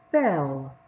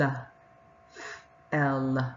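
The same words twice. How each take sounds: First: Fell said as one smooth blended word. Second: F- then el, split apart as two separate sounds; sounded out in parts. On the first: Teacher blending the word for the class, smoothly. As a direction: join f- and el into fell. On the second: Teacher modelling decoding for the children, in parts. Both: Shown as a demonstration. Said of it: "How did you do with your decoding".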